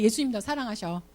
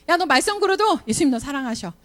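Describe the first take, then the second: First: Softer, 예수님 said gently with a falling close; gentle reassurance. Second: 걸어도 stressed, higher and firmer; insistent reassurance. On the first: Teacher quietly assuring a troublemaker Jesus loves him. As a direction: tell the child tenderly he is loved. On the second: Teacher insisting to a naughty kid that Jesus still loves him. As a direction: press the point home to the child. Same reassurance said again stronger. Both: Pretend.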